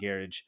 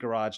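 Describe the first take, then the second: First: Garage is said with a non-American pronunciation. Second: Garage is said with an American pronunciation. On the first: This is how the speaker does not say it. "not garage" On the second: This is how the speaker normally says it. "I'm saying garage"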